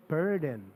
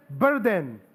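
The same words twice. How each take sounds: First: "Burden" softer and lower, with a "buhr" first syllable; phonics-style burden. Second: "Burden" hit firmly with a Filipino "ber" first syllable; letter-name burden. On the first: Pastor contrasting the phonics way, softer "BUHR-den" for "Burden". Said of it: "So you will pronounce it burden". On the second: Pastor showing the difference, firm "BER-den" for "Burden". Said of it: "See the difference?". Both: Shown as a demonstration.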